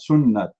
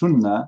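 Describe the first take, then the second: First: The word ends with a clear t sound. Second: The word ends with a soft h sound. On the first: The speaker calls it wrong. "not sunnat" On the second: The speaker calls it right. "It is sunnah, ... It is the correct way"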